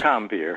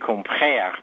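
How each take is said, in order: First: The name is said with an English pronunciation. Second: The name is said with a French throaty r. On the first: "It's Compeer" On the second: "In French, it would be Compère, but you sort of got to clear your throat while you say that"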